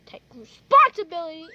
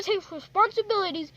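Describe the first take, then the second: First: "responsibility" said loud with a whistle slipping in; loud "responsibility" with a whistled sound; accidental whistle. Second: Said in the usual way. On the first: Pretend. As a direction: let a whistle slip on "responsibility". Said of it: "I whistled". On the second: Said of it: "Oh, I'm sorry, I whistled".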